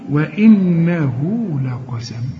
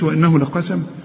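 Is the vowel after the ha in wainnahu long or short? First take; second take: long; short. First: The vowel after the ha is lengthened. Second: The vowel after the ha is cut short. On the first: The speaker calls it right. "مد طبيعي" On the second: The speaker calls it wrong. "ما تقولش"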